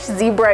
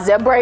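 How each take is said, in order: First: The word is said with a North American pronunciation. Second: The word is said with an English pronunciation. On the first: "zebra in North American" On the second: "zebra in English"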